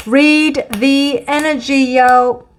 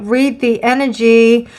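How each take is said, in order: First: Higher and slower, with a cheeky swagger; playful street swagger. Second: Said in the usual way. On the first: Shown as a demonstration. Tarot reader hypes herself up in a playful cool voice. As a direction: say it like a hype slogan, drawn out.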